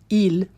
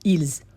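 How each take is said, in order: First: The word ends without an S sound. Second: The word ends with an audible S sound. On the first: The speaker calls it right. "I never pronounced the S from il, plural" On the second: The speaker calls it wrong. "Do not say ils"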